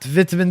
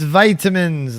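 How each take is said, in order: First: The first vowel is short, as in 'bit'. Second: The first vowel is long, as in 'bite'. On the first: The speaker calls it wrong. "It's not vitamins" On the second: The speaker calls it right. "Long eye"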